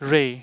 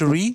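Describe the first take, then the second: First: The vowel sounds like short 'e'. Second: The vowel sounds like 'ee'. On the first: The speaker calls it right. "It's এ" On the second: The speaker calls it wrong. "It's not রি"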